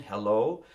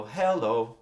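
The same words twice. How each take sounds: First: "hello" in normal accent, stressed on the O; louder "hello", weight on its second syllable. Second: "Hello" with the accent moved to HEL; louder "Hello", breaking normal accent to stress its start; stress on first syllable. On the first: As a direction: land firmly on the last syllable of "hello". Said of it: "the O is, is the accent". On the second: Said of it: "if I wanna break normal prosody". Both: Shown as a demonstration.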